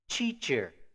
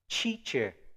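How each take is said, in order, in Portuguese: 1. O primeiro som é um som de 'ch'. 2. O primeiro som é um som de 'ch'.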